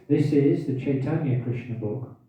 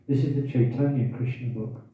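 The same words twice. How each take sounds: First: Hiccuping mid-sentence; speaking through hiccups. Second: Said in the usual way. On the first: Real, not acted. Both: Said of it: "I've got hiccups now".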